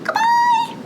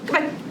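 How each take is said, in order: First: It is said in a very high, squeaky voice. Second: It is said very fast. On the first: "Let's say goodbye as high as we can" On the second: "Let's say goodbye as fast as we can"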